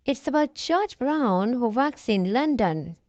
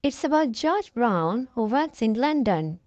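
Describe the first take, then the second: No difference in how they are said.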